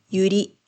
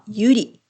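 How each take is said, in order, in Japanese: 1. 花の言葉のアクセントだ。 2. 女の子の名前のアクセントだ。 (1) "花はゆり。" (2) "女の子の名前はゆり。"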